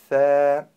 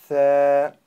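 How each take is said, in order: The two takes are said the same way.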